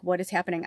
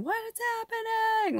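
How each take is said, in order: First: Said in the usual way. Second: Imitated movie scream. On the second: Likening herself to the Poltergeist daughter, high imitated scream. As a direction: shriek it like a horror-film daughter, without full volume. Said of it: "she's, like, screaming".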